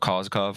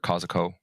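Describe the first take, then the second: First: The name ends with a V sound. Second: The name ends with an O sound. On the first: "the V" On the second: "just a Ko"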